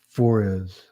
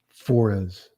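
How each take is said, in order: First: The two words run together as one word. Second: The two words run together as one word.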